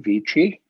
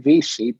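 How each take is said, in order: First: The name is pronounced the Italian way. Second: The name is pronounced the Americanized way. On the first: "that's the Italian way" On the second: "we Americanized it"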